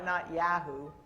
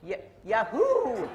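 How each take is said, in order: First: Said in the usual way. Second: Yahoo as a loud, slow, laughing whoop; excited whoop. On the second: Shown as a demonstration. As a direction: cheer the word Yahoo out, laughing. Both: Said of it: "that my Canadian accent showing?".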